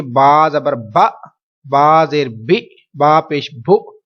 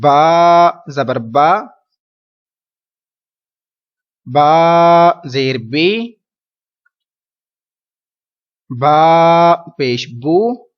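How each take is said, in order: First: با، بی، بو each cut off with a hard jolt; jerky syllables. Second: با، بی، بو spelled gently and very slowly, no jolt; soft slow spelling. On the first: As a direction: show the wrong, jerked reading. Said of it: "ایسا نہیں کرنا". (با، بی، بو کو جھٹکے سے پڑھنا) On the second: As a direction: read it softly, the right way. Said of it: "بلکہ نرمی سے پڑھنا ہے". (با، بی، بو نرمی سے آہستہ پڑھنا) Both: Shown as a demonstration.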